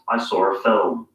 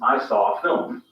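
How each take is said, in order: First: An r sound links saw and a. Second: Saw and a join with no r sound.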